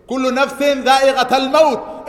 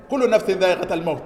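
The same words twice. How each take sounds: First: Loud recitation. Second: Said in the usual way. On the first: Real, not acted. Imam reciting the verse to worshippers, loud chanted recitation. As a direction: ring out the verse like a call. Quoting Quran to congregation.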